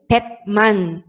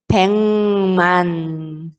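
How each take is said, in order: First: The first syllable ends in a k sound. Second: The first syllable ends in an ng sound. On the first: The speaker calls it wrong. "a gente não vai ler 백만" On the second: The speaker calls it right. "a gente vai ler como se fosse iam"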